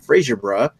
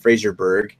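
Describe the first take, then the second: First: The name ends with a soft 'bruh' sound. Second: The name ends with a hard 'berg' sound. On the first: "Is it Bra" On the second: "or Berg?"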